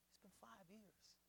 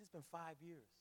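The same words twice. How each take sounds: First: Much softer, slow, heavy echo; hushed repeat. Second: Said in the usual way. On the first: Retold or imitated. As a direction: let the words sink in, barely said. Retelling grieving man's words.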